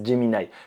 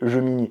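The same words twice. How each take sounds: First: The word is pronounced the English way. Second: The word is pronounced the French way. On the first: "je le dis à l'anglaise" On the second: "quand on le lit, ça fait Gemini"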